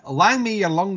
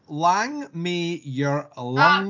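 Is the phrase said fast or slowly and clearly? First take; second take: fast; slowly. First: The phrase is said quickly. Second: The phrase is said slowly and clearly. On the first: "Say it fast" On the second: "he did it way more clear that time"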